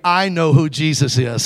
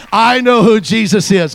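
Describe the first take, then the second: First: Said in the usual way. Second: Higher, louder, slow declaration; loud slow testimony; proclaimed aloud. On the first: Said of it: "say it". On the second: Shown as a demonstration. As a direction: proclaim it to the whole room. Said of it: "Come on, say it".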